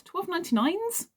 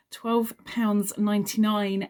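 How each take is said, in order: First: "twelve ninety-nines" asked with a high questioning rise; "twelve ninety-nines" pitched up as if unsure; puzzled question. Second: Said in the usual way. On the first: Real, not acted. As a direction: query "ninety-nines" rising sharply, doubting it.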